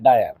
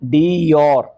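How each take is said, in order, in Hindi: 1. यह dye-er की तरह बोला जाता है, अंग्रेज़ी के dyer जैसा। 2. यह दो अक्षरों में बोला जाता है, dee-or। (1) "बार बार बार बार मैडम क्या बोल रही थी" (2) "उसको क्या बोलना चाहिए"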